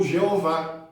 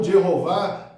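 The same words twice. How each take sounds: First: Second Jeová with no H sound; Portuguese pronunciation. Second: First Jeová with the H sounded like double R; older H pronunciation. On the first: Teacher showing the Portuguese form, Jeová without the H. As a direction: say Jeová smoothly as "jeh-o-VÁ", vowels meeting. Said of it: "o H não teria som de R". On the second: Teacher showing the older form, Jeová with sounded H. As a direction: say Jeová as "djeh-ho-VÁ", H audible. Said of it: "tiraram o H com som de duplo R". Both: Shown as a demonstration.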